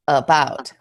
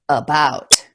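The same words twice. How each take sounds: First: The first vowel is a reduced 'uh' sound. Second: The first vowel is a reduced 'uh' sound.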